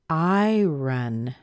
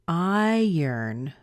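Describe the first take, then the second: First: The second syllable sounds like 'ron'. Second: The second syllable sounds like 'urn'. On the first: The speaker calls it wrong. "I would look at that word if I didn't know it and say" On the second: The speaker calls it right. "listen to it, see what you hear"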